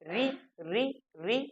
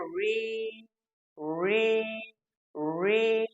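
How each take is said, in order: First: It is a short syllable ri that cannot be held. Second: It is a vowel-like r sound that is held. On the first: This is how it is said today. "हम इसको लगातार नहीं बोल सकते" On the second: This is how it was said in the past. "जो री का सही उच्चारण था"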